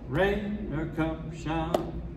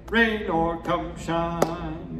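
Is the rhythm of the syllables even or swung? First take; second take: swung; even. First: The syllables alternate long and short, swung. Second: The syllables are spaced in an even rhythm. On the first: The speaker calls it right. "you say" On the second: The speaker calls it wrong. "you don't say"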